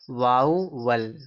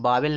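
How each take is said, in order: First: The first syllable glides like 'vow'. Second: The first syllable is a flat 'vah'. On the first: The speaker calls it right. "इसको देखो पढ़ा जाएगा वाउवल" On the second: The speaker calls it wrong. "इसको वावेल नहीं पढ़ेंगे"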